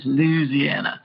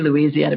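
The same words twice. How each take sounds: First: It is said with a strong Southern sound. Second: It is said in a plain, non-Southern way. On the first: "he says Louisiana, which sounds very, very much more Southern to me" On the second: "I say Louisiana"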